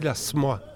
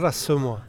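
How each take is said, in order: First: The vowel after the S is dropped. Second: The vowel after the S is pronounced. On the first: This is the local shortened way of saying it. "il me semble que tu dis la Smois" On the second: This is the standard full way of saying it. "Pas la Semois"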